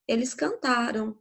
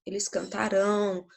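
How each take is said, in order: First: Cantaram with a weak, unstressed final -am; unstressed ending. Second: Cantarão with a strong, stressed final -ão; cantarão ending said strong and tônico. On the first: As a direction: let the end of cantaram fall away softly. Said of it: "Aqui é um som mais átono". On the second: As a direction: lean on the last syllable of cantarão. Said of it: "Já é um som mais forte". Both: Shown as a demonstration.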